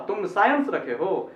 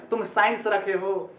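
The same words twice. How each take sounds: First: साइंस as saa-yuns within the sentence; two syllables. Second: साइंस clipped to "sains" within the sentence; single syllable. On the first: Teacher giving an example sentence, saa-yuns. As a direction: separate सा and यंस in साइंस. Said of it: "ऐसे बोलना चाहिए". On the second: Teacher quoting the wrong sentence, "sains". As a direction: run साइंस into one syllable. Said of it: "ऐसे ना". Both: Shown as a demonstration.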